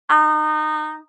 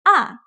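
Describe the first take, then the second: First: The pitch stays high and level. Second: The pitch starts high and falls quickly. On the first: "It starts high and maintains the high pitch the whole time" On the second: "It starts very high but quickly goes down"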